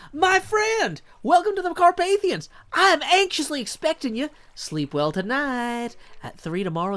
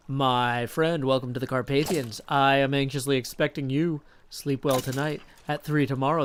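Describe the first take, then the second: First: High, loud, over-energized welcome; YouTube-voice Dracula. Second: Lightly imitated streamer voice as Dracula; half-formed impression, close to natural pitch; Scar. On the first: Acted. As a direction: blast it out like a hyped creator, then ease off. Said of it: "Dracula should just be my YouTube voice". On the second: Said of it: "what about the Scar voice?".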